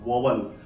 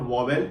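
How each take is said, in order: First: The second syllable sounds like 'wal'. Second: The second syllable sounds like 'vel'. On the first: The speaker calls it right. "It is called वोवल" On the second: The speaker calls it wrong. "इसको भी लोग वोवेल बोलते हैं, that is not वोवेल"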